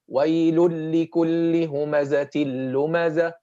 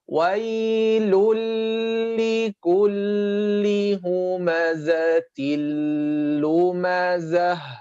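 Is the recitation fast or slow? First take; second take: fast; slow. First: The words are recited quickly. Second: The words are recited slowly and deliberately. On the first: "But if you're reading hadr" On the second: "If you're reading with tahqiq"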